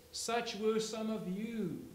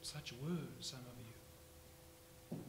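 First: Slow, loud stress on were; slow emphatic. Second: Very slow, much softer repeat; soft, slow echo. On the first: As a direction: hammer out "were" as past tense. Repeated for emphasis. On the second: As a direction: let "were" fall quietly and linger. Repeated softly after shouting. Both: Acted.

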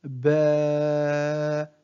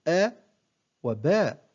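First: "باء" with the aa held very long; long alif vowel. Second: Short, cut-off "أ وباء"; short vowel. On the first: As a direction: stretch the vowel of "باء" on a level pitch. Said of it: "أما المد بالألف". (مدّ الألف في "باء" طويلاً) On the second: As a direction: keep the fatha in "أ وباء" brief, no lengthening. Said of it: "حركة قصيرة". (نطق "أ وباء" بفتحة قصيرة) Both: Shown as a demonstration.

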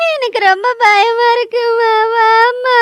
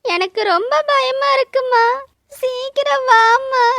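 First: Crying out to mother, terrified; desperate tearful call for mother; sobbing plea. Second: A small, frightened plea to mother; mild fear, holding back tears; scared. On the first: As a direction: weep the words and beg her to come. Crying, calling mother after blood. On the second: Alone, scared, calling for mother. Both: Acted.

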